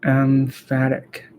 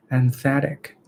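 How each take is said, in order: First: Emphatic said slowly as "em-FAT-ic" with a clear f; corrected pronunciation. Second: Emphatic said as "em-THAT-ic" with a th sound; mispronounced emphatic. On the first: Shown as a demonstration. After looking the word up, slowly says emphatic right. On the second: Real, not acted. Reading practice, first tries emphatic with a th sound. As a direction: say emphatic with a th where the f belongs. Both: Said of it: "More lookup".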